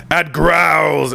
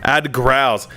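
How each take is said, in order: First: Growled. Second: Said in the usual way. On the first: Shown as a demonstration. YouTuber testing a voice tip on himself, growled. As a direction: growl creeping into the words.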